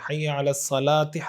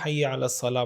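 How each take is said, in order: First: The final word ends with an added vowel. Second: The final word ends without any vowel. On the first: The speaker calls it wrong. "ये ठीक तरीक़ा नहीं है" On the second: The speaker calls it right. "आखिरी हर्फ पे कोई एराब ना पढ़ें"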